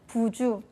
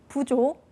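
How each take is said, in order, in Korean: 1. 두 번째 음절의 모음은 u예요. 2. 두 번째 음절의 모음은 o예요. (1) "부주, 사둔, 삼촌으로 발음을 하시는 경우가 많을 겁니다" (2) "다음 예시의 세 단어를 외워주시면 됩니다"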